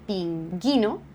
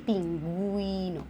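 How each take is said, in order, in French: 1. Le u après le g est muet. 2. Le u après le g est prononcé. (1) "On ne dit pas" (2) "on dit"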